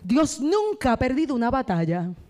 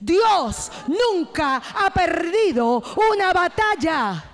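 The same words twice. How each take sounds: First: It is said at normal volume and energy. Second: It is shouted at full volume.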